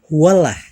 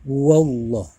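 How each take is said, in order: First: The L in Allah is light and thin. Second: The L in Allah is heavy and rounded. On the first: The speaker calls it wrong. "nggak boleh dibacanya" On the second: The speaker calls it right. "bunyinya Allah itu bulat seperti bunyi waw"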